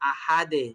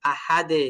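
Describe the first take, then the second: First: The final D bounces out with an 'e' sound. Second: The final D bounces out with an 'e' sound.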